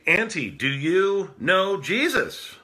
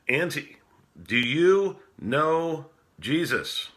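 First: It is asked with some urgency. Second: It is asked calmly, without urgency.

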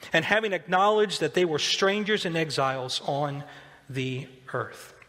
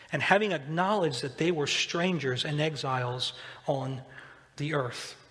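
The two takes are said the same way.

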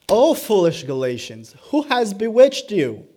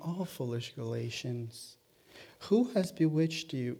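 First: It is said in a harsh, sharp tone. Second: It is said in a mild, gentle tone. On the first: A severe rebuke. The speaker calls it right. "No, it is, ... That is the tone of that passage" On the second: A soft, mild reproach. The speaker calls it wrong. "The tone of this is not"

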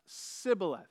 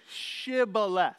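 First: The word begins with a plain s sound. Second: The word begins with a sh sound. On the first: The speaker is an enemy from another tribe. The speaker calls it wrong. "the Ephraimites couldn't pronounce it right" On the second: The speaker belongs to the checkpoint's own side. The speaker calls it right.

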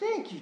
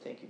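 First: Said with overjoyed, exuberant energy. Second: Said in a reserved, polite British-accented tone. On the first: Overwhelming joy at being healed. The speaker calls it right. "he's throwing himself at his feet and just" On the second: A restrained, formal thanks. The speaker calls it wrong. "It wasn't very, oh, thank you, Jesus, I'm very appreciative. You had a British accent, of course"

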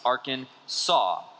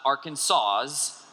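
First: The final S is left silent. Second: The final S is pronounced aloud. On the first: The speaker calls it right. "the proper pronunciation is in three syllables with the final S being silent" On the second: The speaker calls it wrong. "It is not Arkansas's, even though it looks like that"

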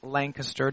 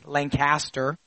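First: It uses the local pronunciation of the name. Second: It uses the Connecticut pronunciation of the name. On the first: This is how the name is properly said locally. The speaker calls it right. "I had to learn over the years that it's Lancaster" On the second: This is how people from Connecticut say it. The speaker calls it wrong. "From Connecticut, we say Lancaster"

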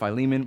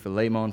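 First: It is said the common English way. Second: It is said the Greek way. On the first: "I've heard Philemon my whole life" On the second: "the Greek pronunciation"

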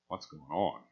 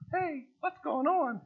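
First: It sounds suspicious and displeased. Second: It sounds casual and friendly.

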